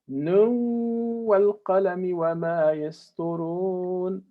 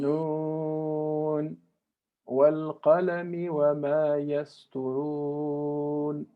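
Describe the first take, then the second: First: The first word runs straight into the next. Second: A short pause follows the first word. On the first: The speaker calls it wrong. "we don't say" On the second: The speaker calls it right. "There's haraka that we have to make a pause"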